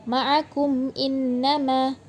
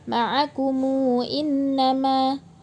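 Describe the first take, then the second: First: The m is closed with no following vowel. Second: The m is followed by a short u vowel. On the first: "dibaca sukun"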